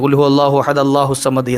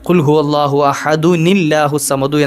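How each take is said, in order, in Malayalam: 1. ahad നേരിട്ട് യാതൊരു ബന്ധവുമില്ലാതെ allahu വിലേക്ക് ചേരുന്നു. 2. ahad, allahu വിനോട് ചേർത്ത 'un' ശബ്ദം വഴി ചേരുന്നു. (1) "കൂട്ടി ഓതാറുണ്ട്... അത് തെറ്റാണ് കേട്ടോ" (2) "കൂട്ടി ഓതുമ്പോൾ ഓതേണ്ടത്"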